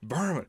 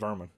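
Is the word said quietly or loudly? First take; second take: loudly; quietly. First: The word is said loudly. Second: The word is said fairly quietly.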